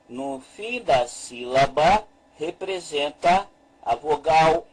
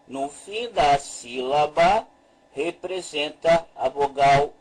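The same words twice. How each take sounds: The two takes are said the same way.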